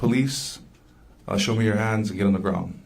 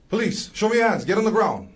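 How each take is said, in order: First: It is said at a normal speaking volume. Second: It is yelled loudly in a commanding voice.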